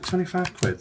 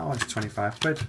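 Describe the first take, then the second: First: High, rising question on twenty-five quid; a mild mock double take at twenty-five quid; surprised echo. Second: Said in the usual way. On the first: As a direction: pitch it way up, taken aback by the price. Jay echoes the price back.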